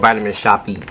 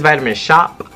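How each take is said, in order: First: The last word is said as two syllables. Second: The last word is said as one syllable. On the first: "or Vitamin Shoppy" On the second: "I never know if it's Vitamin Shop"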